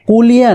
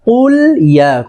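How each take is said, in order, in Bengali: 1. দুটি শব্দ একসাথে জোড়া লেগে একটি শব্দ হয়ে যায়। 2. দুটি শব্দ স্পষ্টভাবে আলাদা করে রাখা হয়। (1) "অনেকে কুলিয়া বলে" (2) "না কুল ইয়া খুব খেয়াল করে শুনবেন"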